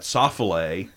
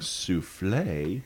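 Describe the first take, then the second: First: The word is sounded out from its spelling. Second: The word has its usual standard pronunciation. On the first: The speaker calls it wrong. "you say that soffle" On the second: The speaker calls it right. "instead of saying souffle"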